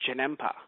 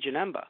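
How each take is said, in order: First: The consonant before the last vowel is p. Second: The consonant before the last vowel is b. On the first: "they pronounce it as Janempa" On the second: "I look on Wikipedia and I see Janemba"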